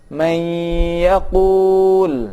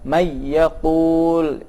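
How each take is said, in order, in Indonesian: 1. Diucapkan dengan dengung hidung. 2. Diucapkan tanpa dengung hidung. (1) "yang benar digunnahkan" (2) "bacaan yang salah"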